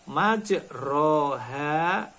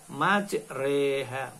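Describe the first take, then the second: First: The vowel after r is a plain 'a'. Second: The vowel after r leans toward 'e'. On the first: The speaker calls it wrong. "Di mana tertulis majroha" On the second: The speaker calls it right. "tetapi harus dibaca imalah"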